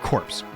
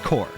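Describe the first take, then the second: First: The syllable ends with a 'ps' sound. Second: The syllable ends without a 'ps' sound. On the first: The speaker calls it wrong. "It's not pronounced that way" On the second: The speaker calls it right. "It's actually pronounced core"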